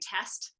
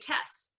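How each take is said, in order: First: The final t sound is pronounced. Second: The final t sound is dropped. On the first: "instead of saying test" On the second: "I'll delete the last consonant"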